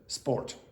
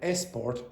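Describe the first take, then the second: First: The word starts directly with the s sound. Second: An extra vowel sound comes before the s.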